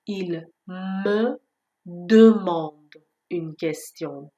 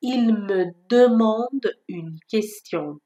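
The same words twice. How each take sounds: First: "Il me demande une question" split with pauses; word by word. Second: "Il me demande une question" spoken very slowly; slow example. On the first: Teacher repeating it for learners: slow, separate. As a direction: drill it word by word. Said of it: "demande خیلی فرقشه با demande". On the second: Teacher giving another example: very slow and clear. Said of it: "چند تا مثال دیگه با همین صدا". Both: Shown as a demonstration.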